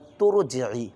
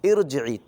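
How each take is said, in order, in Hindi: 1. यह पिछले शब्द से जुड़कर चलता है, 'i' के बिना। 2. यह अपने आप 'i' की आवाज़ से शुरू होता है। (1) "अगली आयत से मिलाकर पढ़ूँगा" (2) "रुक कर पढ़ेंगे तो उसको तुरजिई नहीं पढ़ेंगे, बल्कि इरजिई पढ़ेंगे"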